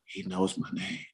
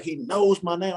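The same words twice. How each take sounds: First: Softer, slower, dazed "He knows my name"; quiet awestruck hush; stunned murmur. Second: Higher, awed "He knows my name"; awed fanboy squeak; starstruck kid voice. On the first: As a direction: let it slip out in disbelief. Stunned alone on the bench. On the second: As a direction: squeak it like a giddy little kid. Like a little kid. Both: Retold or imitated.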